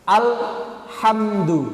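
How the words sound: It has a long pause after 'al'. "awalnya jeda lama"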